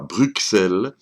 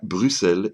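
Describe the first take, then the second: First: The middle consonant is said as 'ks'. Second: The middle consonant is said as 's'. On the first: The speaker calls it wrong. "l'on ne dit pas Bruxelles" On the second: The speaker calls it right. "mais bien Bruxelles, et ce malgré le X"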